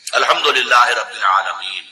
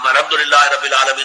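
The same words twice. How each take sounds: First: It is recited slowly, with a pause after. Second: It is recited quickly, running into the next verse.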